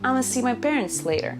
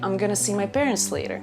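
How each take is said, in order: First: 'I'm going to' is squeezed into two syllables. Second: 'Going to' is reduced and run together as 'gonna'. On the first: "But you can also say" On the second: "You can also say"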